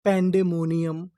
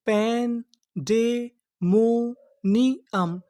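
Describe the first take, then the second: First: Said in the usual way. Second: Very slow, broken into syllables. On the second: Shown as a demonstration. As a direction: sound out पैन डे मो नी अम piece by piece. (टुकड़ों में धीरे-धीरे पढ़ना) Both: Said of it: "तो पूरी meaning क्या बनी?".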